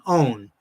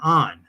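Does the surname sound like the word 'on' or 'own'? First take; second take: own; on. First: The surname rhymes with the word own. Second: The surname rhymes with the word on. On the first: The speaker calls it wrong. "I've heard that mispronounced" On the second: The speaker calls it right. "it was Jonathan On"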